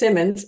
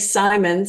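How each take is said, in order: First: The name is said as Simmons. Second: The name is said as Simons. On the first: This is how others mistakenly pronounce it. The speaker calls it wrong. "then they introduce me as Simmons" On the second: This is how the owner pronounces her name. The speaker calls it right. "I'll say Simons"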